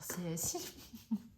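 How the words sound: The final letter is named the French way. "comme je suis française, je vais dire C S I"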